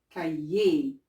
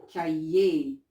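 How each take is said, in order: The two takes are said the same way.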